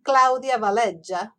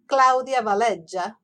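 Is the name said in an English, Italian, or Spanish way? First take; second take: Italian; Italian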